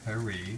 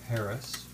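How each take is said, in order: First: It is said with a French pronunciation. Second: It is said with an English pronunciation.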